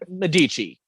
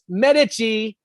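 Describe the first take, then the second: First: It is pronounced the local American way. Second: It is pronounced the way Italians say it. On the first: The speaker calls it wrong. "not Medici... it's a Saint Louis thing. We butcher different names" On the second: The speaker calls it right. "the people in Italy goes Medici"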